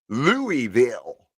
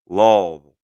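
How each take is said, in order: First: The word is said with three syllables. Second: The word is said with two syllables. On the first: The speaker calls it wrong. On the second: The speaker calls it right. "It's really about two syllables"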